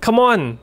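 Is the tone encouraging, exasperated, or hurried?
hurried. It sounds urgent and impatient to hurry. Hurry up. "อาจจะแปลว่าเร็วเข้าแบบเร็วๆหน่อย"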